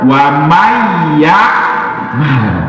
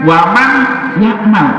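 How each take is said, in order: First: The n merges into the following y sound. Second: The n is pronounced clearly before yakmal. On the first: "tapi kok dibaca wamay yakmal" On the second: "mesti kan waman yakmal"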